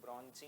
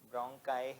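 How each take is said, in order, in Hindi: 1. इसमें 'ch' की आवाज़ है और यह 'ee' पर खत्म होता है। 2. इसमें 'k' की आवाज़ है और यह 'eye' पर खत्म होता है। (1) "कुछ टीचर्स इसको ब्रॉन्ची प्रोनाउंस कर देते हैं, ब्रॉन्ची नहीं है" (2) "ब्रोंकाई है प्रोनाउंसिएशन"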